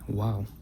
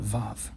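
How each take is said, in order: First: It begins and ends with a w sound. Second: It begins and ends with a v sound. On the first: This is the name chosen by the revivers of Hebrew. "in the chosen pronunciation of Hebrew, it's called Wow" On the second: This is the name used in modern Hebrew. "In modern Hebrew, they call it Vav"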